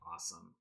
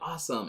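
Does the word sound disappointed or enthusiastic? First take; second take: disappointed; enthusiastic. First: The word sounds flat and disappointed. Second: The word sounds upbeat and enthusiastic.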